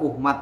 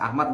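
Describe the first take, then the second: First: The name begins with a 'u' vowel. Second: The name begins with an 'a' vowel. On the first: The speaker calls it wrong. "nggak boleh dibaca Uhmad" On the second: The speaker calls it right. "jelas Ahmad"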